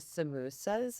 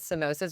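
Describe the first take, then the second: First: The word is said the South African way. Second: The word is said the usual, non-South African way. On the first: This is what South Africans call them. "they call them samosas in South Africa" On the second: This is what they are usually called elsewhere. "instead of samosas"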